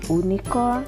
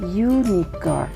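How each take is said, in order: First: The word begins with a plain vowel sound. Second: The word begins with a consonant y sound. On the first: The speaker calls it wrong. "bukan unicorn" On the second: The speaker calls it right. "Tapi dibacanya unicorn"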